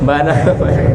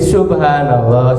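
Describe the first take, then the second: First: It is rushed, with the first syllable dropped. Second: It is slow, with every syllable said clearly. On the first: The speaker calls it wrong. "Kadang orang terlalu cepat gitu, ingin cepat-cepat jadi bukan subhanallah, jadinya banallah" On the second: The speaker calls it right. "membacanya secara perlahan-lahan aja, secara tartil ... jelas gitu ucapannya"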